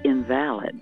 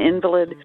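First: The stress is on the second syllable. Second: The stress is on the first syllable.

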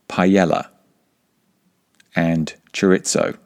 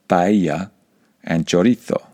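First: The words are said with English sounds. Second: The words are said with Spanish sounds. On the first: "We say paella and chorizo" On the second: "instead of paella and chorizo"

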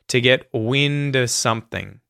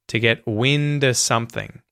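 First: The word 'of' is reduced to a schwa. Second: The word 'of' is reduced to a schwa.

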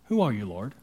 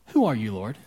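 First: The question is said in a calm, plain way. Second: The question is said in a tense, forceful way. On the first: The speaker calls it wrong. "on our screen it says" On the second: The speaker calls it right. "I'm thinking it was a little more intense than that"

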